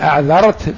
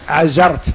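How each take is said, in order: First: The middle consonant is a soft 'dh' sound. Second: The middle consonant is a buzzing 'z' sound. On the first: "يبدل الذال" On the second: "بزاي"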